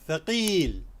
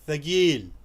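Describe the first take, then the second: First: It is said in formal standard Arabic. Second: It is said in a Gulf Arabic accent. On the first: "This is the bookish Arabic" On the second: "आम तौर पे अरब खलीजी ममालिक में कहते हैं थगील"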